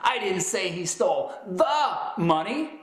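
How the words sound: The stress is on "the".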